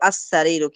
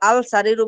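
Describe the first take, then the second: First: The L sound merges into a doubled s. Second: The L sound is pronounced clearly before s. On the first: The speaker calls it right. "বলতে হবে আস-সারিরু" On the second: The speaker calls it wrong. "আল আল সারিরু বললে আপনার ভুল হবে"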